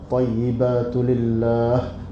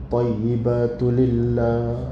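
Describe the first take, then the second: Both takes have the same delivery.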